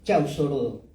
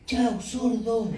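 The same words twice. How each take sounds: First: It is said calmly, without shouting. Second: It is said loudly, like an exclamation.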